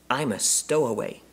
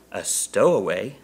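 First: High little bear voice; small bear's confession. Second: Slow questioning echo, rising; surprised echo. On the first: Bear confessing to the Browns, small voice. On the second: Husband echoing the bear's confession, surprised. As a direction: repeat it slowly as a startled question. Mr Brown echoes bear in surprise. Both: A narrator's reading.

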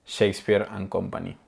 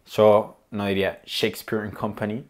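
First: "Shakespeare and Company" said the Spanish way, Shakespeare as "Shéspir", Company with Spanish vowels; Shakespeare and Company with a Spanish accent; Spanish-accented English. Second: Said in the usual way. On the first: Shown as a demonstration. Teacher showing how a Spanish speaker says Shakespeare and Company, Spanish-accented. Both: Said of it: "con acento en español".

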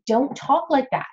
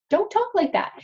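First: Said in the usual way. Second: "Don't talk like that" repeated much higher as a firm warning; emphatic repeat. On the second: Real, not acted. Hygienist warning other hygienists, in an emphatic repeat. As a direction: drive the repeat home, pitched up high.

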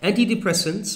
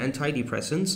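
First: "Antidepressants" starting an-tee; first pronunciation variant. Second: "antidepressants" starting an-tie; second pronunciation variant. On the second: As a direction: say the "anti" in "antidepressants" to rhyme with tie. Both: Shown as a demonstration. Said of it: "or antidepressants".

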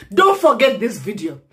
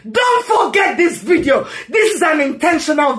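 First: Said in the usual way. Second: Higher, shouted rising warning; angry shout. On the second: Real, not acted. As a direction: yell it at the viewers. Rant, repeats line louder.

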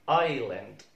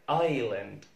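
Both takes have the same delivery.

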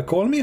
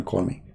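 First: Bright, rising, eager request; eager call me. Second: "Call me." low and softer, calm; quiet call me. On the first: Tells viewers how he would invite the caller, eagerly. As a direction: ask brightly, like you really want the call. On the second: Tells viewers how he would answer the caller, quiet and calm. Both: Shown as a demonstration. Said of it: "I will say to him".

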